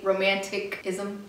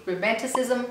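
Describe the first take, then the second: First: "romanticism" said as ro-man-tick-ism, with a hard k; slow attempt at "romanticism", keeping the k of romantic; stumbled pronunciation. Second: Said in the usual way. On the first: Real, not acted. Struggling with a tongue twister, "romanticism" as ro-man-tick-ism. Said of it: "I wish I could say". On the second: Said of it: "That sounds like a tongue twister".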